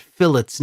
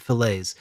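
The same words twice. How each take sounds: First: "fillets" said the way the YouTuber says it, the intended correct form; the proper "fillets"; correct pronunciation. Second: "fillets" said the rejected way, dropping lower and softer; "fillets" the way it's not said; wrong pronunciation. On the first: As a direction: say "fillets" as the right version. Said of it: "I'm pretty sure they pronounce it fillets". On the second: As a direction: say "fillets" as the mistaken version. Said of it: "not fillets". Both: Shown as a demonstration.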